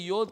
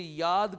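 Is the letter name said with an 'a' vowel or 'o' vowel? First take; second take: o vowel; a vowel. First: The vowel is an 'o' sound, yod. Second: The vowel is an 'a' sound, yad. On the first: The speaker calls it wrong. "योद करके नहीं बोलना चाहिए" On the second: The speaker calls it right. "उसे याद करके बोलना चाहिए"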